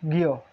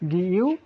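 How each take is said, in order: First: It is said as one merged syllable. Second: It is said as two separate syllables. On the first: The speaker calls it right. "এটি হয়ে যাবে কি উচ্চারণ গিও" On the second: The speaker calls it wrong. "হওয়ার কথা ছিল কি গি ইউ"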